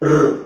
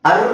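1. r ಅನ್ನು ಸ್ವರ ಇಲ್ಲದೆ ಒಂಟಿಯಾಗಿ ಹೇಳಬೇಕು. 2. r ಗಿಂತ ಮೊದಲು ಒಂದು ಸ್ವರ ಇರುತ್ತೆ. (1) "ಅರ್ಧ ಅಕ್ಷರ ರ್ ರ್ ಅಂತ ಹೇಳ್ಬೇಕು" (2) "ಅರ್ ಅಂತ ಹೇಳ್ಬಾರ್ದು"

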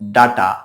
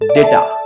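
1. প্রথম স্বরধ্বনিটি একটি 'ah' ধ্বনি। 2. প্রথম স্বরধ্বনিটি একটি 'ay' ধ্বনি। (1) "অনেকেই এটার উচ্চারণ করে ডাটা" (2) "এটার উচ্চারণ হবে ডেটা"

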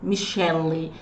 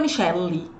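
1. A palavra tem uma vogal depois do L. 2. A palavra tem uma vogal depois do L.

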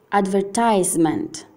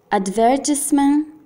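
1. Si pronuncia con un accento inglese americano. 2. Si pronuncia con un accento inglese britannico. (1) "inglese americano" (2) "inglese britannico"

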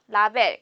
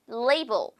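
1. 한국어 외래어 발음으로 말합니다. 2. 영어 발음으로 말합니다. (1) "우리 라벨이라고 많이 읽죠?" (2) "라벨 대신에 어떻게 들릴까요?"

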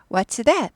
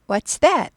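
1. 끝에서 목소리가 내려갑니다. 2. 끝에서 목소리가 내려갑니다.

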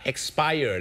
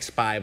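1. เสียง 'ire' ตอนท้ายออกเสียงเต็ม 2. เสียง 'ire' ตอนท้ายถูกตัดทิ้ง (1) "แต่ถ้าหมดอายุต้องออกเสียงว่า" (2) "ไปบอก, expire, เป็นสายอดีตสายลับแล้วนะครับ"

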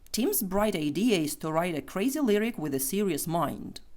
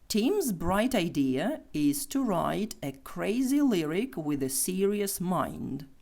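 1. Речення вимовляють швидко. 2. Речення вимовляють повільно. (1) "Тепер швидше" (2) "Ще раз повільно"

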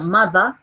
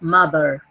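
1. El sonido final -er se corta rápido. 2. El sonido final -er se alarga. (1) "El británico corta ese sonido" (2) "el americano lo exagera"

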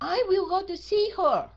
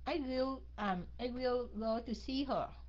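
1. Nói mạnh mẽ, giọng cao và giận dữ. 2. Nói với giọng bình thường, đều đều. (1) "Đó là có vẻ như là giận rồi đó" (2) "Nói bình thường thôi"

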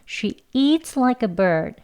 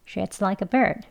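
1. 이 문장은 천천히 말해요. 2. 이 문장은 빨리 말해요. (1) "천천히 한번 해보겠습니다" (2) "이제 빨리 발음을 하면요"

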